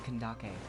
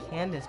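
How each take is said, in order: First: The name is pronounced as Kandake. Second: The name is pronounced like English Candace. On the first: The speaker calls it right. "It's Kandake" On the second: The speaker calls it wrong.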